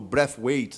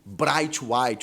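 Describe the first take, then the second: First: The name is said in its original way. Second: The name is said in a Brazilianized way. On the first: "na pronúncia correta, como ele mesmo já falou" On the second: "a gente vai acabar brasileirando por aqui"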